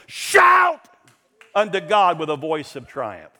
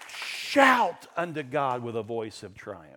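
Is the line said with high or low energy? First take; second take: high; low. First: It is said loudly with great energy. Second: It is said quietly with little energy. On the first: The speaker calls it right. "Like you just came off a battlefield where the victory was won" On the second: The speaker calls it wrong. "that's weak"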